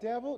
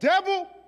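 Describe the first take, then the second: First: It is said weakly, like a hesitant question. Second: It is shouted loudly and with strong force. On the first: The speaker is unsure and afraid. The speaker calls it wrong. "Some of y'all are like" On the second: The enemy is confronted boldly. The speaker calls it right. "No, you got"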